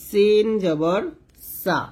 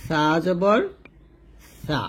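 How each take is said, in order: First: সিন জবর সা spelled out with a clear thin s; thin hissed s. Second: সা জবর সা spelled out with lisped th for স; tongue on upper teeth. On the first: Teacher spelling out the vowel, সা with thin s. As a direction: keep s sharp in সিন জবর সা. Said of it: "নিচে দাঁতের সাথে লাগিয়ে পাতলা করে". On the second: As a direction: make each সা a 'thaa', tongue at upper teeth. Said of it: "জিহ্বার আগাটা উপরে দাঁতে লাগবে". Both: Shown as a demonstration.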